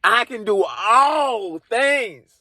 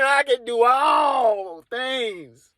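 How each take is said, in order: First: Slow, solemn holy pronouncement; solemn Jesus voice. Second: Slow, solemn holy pronouncement again; solemn Jesus voice. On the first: Jesus answering the comedian, slow solemn intoning. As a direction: intone it like scripture. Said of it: "He's like". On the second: The comedian repeating Jesus, slow solemn intoning. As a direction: drag it out like scripture. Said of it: "I'm repeating it twice". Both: Retold or imitated.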